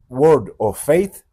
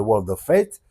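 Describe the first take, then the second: First: Slow, loud attempt at an English accent; bad English accent. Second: Said in the usual way. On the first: Real, not acted. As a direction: say it laboriously in clumsy French-accented English. (mauvais accent anglais, lent et appuyé) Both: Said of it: "mon accent anglais, c'est immonde".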